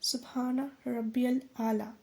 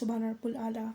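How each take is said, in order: First: The phrase is said slowly and carefully. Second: The phrase is said quickly and rushed. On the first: The speaker calls it right. "ऐसे हमें धीरे धीरे" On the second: The speaker calls it wrong. "कुछ लोग सजदे में fast fast बोलते हैं, जैसे"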